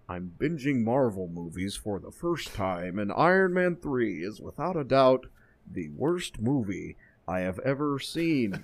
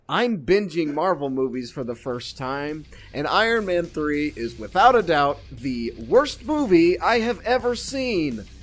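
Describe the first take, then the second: First: It is read in the Mandarin's voice. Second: It is read in the speaker's own voice.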